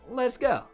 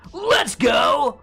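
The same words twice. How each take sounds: First: It is said in a calm, ordinary voice. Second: It is yelled loudly with excitement. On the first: Let's move on to the next step. The speaker calls it right. "I mean, let, let's go, right? Let's like move beyond this step" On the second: Celebrating something successful. The speaker calls it wrong. "You gotta like yell it in a specific way"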